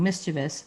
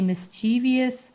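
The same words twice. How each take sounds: First: It has three syllables ending in -vous. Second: It has an extra syllable ending in -vious. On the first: The speaker calls it right. "it's V O U S. It's mischievous" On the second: The speaker calls it wrong. "I said that wrong"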